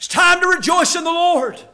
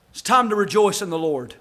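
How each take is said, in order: First: Higher, ringing declaration; preacher lifting the same words into a call; preaching proclamation. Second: Offhand, easy line, no preaching force; a hint of Nehemiah shrugging off the weeping; casual Nehemiah. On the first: Acted. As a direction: proclaim it to the whole room. Preached right after the paraphrase. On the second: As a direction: toss it off as a plain folksy nudge. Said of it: "the way I talk".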